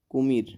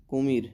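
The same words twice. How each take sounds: The two takes are said the same way.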